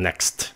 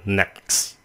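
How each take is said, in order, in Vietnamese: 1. Âm T cuối được phát âm rõ ràng. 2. Âm T cuối bị lược bỏ. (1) "không có cần next" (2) "cái chữ next các bạn có thể phát âm là next, vậy thôi"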